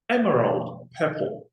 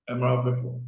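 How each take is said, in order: First: The name is said slowly with clear articulation. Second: The name is said quickly and indistinctly. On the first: The speaker calls it right. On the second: The speaker calls it wrong.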